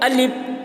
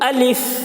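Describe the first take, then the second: First: It ends in a p sound without escaping air. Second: It ends in a breathy f with air escaping. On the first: The speaker calls it wrong. "हवा नहीं निकल रही है, आखिर में पे की आवाज़ निकल रही है। ... तो ये भी गलत है।" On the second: The speaker calls it right. "इसको जब अलिफ बोलते हैं तो हवा निकलती है। ... ये सही तलफ़्फ़ुज़ है अलिफ का।"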